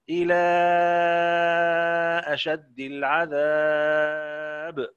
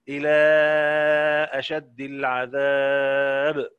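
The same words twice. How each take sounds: First: The vowel before the glottal stop is held long. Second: The vowel before the glottal stop is held medium. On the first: "ورش" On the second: "اندرج مع أهل التوسط"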